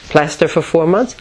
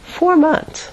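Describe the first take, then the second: First: Retold resistance, mildly incredulous at the idea; sealed-off refusal. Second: High-pitched, delighted realization; light up at the idea, much higher; budding enthusiasm. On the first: Facing months in plaster, sealed-off refusal. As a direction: balk at it, in an understated way. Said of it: "sealed off like Teflon". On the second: Retold or imitated. Realizing months off are ahead, budding enthusiasm. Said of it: "started to get a little bit enthusiastic".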